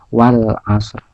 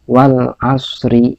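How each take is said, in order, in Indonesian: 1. Kata berakhir pada r, tanpa vokal. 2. Setelah r ada vokal pendek, yang menyambung ke kata berikutnya. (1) "ro belakangnya itu itu tidak usah dibaca" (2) "kalau digabungkan ro-nya dibaca"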